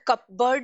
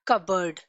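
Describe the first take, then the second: First: The p sound is pronounced in the middle. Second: The p sound is silent in the middle. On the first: The speaker calls it wrong. "हम इसको कपबर्ड नहीं pronounce करते" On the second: The speaker calls it right. "We pronounce it as कबर्ड"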